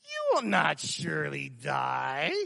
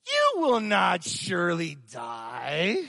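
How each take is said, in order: First: Slow, quieter sly whisper of the tempter; Satan softly coaxing Eve, slow and sly; softer serpent voice. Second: Sly serpent voice. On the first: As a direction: purr the lie softly. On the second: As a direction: lean into the lie like the serpent. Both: Acted. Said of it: "My wife says I do that really good".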